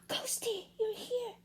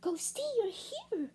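First: Put-on girl's voice, higher and softer; surprised little girl, high and hushed; high child voice. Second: Put-on girl's voice, much higher and softer; a little girl, higher and hushed; high child voice. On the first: Bella surprised to hear Ghosty, high and soft. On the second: Amelia surprised to find Ghosty, high and soft.

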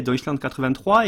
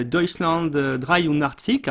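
First: Said in the usual way. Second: Slow, careful German pronunciation of Deutschland, euh, dreiundachtzig, with a German ch and r; the original German title, spoken slowly in a light German accent. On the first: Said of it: "alors en français". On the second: Shown as a demonstration. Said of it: "mon accent allemand".

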